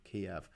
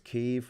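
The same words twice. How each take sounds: First: The name is said in the Russian way. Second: The name is said in the Ukrainian way. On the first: The speaker calls it wrong. "the Russian way of saying it is Kiev" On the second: The speaker calls it right. "the Ukrainian way of saying it is Kiev"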